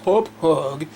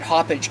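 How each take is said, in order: First: The name ends with a 'hog' sound. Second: The name ends with a 'page' sound. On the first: The speaker calls it wrong. "the company name is pronounced Hop Hog. I think that sounds stupid" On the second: The speaker calls it right. "the way it should be pronounced"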